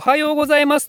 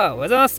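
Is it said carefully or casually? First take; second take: carefully; casually. First: It is said carefully and fully. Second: It is said casually and loosely.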